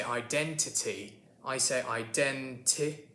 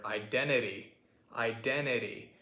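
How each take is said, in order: First: Identity with both T's fully pronounced, British style; two clear T's. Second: Identity as 'iden-ity', first T gone, second tapped; American 'identity', T lost after the N; dropped T. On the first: Acted. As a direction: sound out each T in 'identity'. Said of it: "with two T's there". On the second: Shown as a demonstration. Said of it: "you kinda drop the T there".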